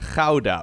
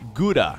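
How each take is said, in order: First: It is said with a Dutch pronunciation. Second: It is said with an English pronunciation. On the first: The speaker calls it right. "the way you would actually pronounce this in Dutch is Gouda" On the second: The speaker calls it wrong. "Is that the way English speakers pronounce that city?"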